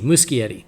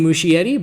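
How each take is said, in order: First: The middle consonant is a hard k sound. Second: The middle consonant is a soft sound. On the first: The speaker calls it right. "it's a hard C" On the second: The speaker calls it wrong. "I've been saying"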